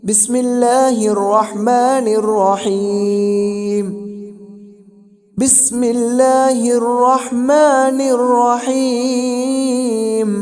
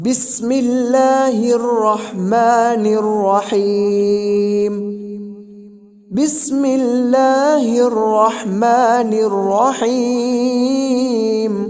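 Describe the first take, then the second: No difference in how they are said.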